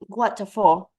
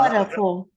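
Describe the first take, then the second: First: It is said in a British accent. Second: It is said in an American accent.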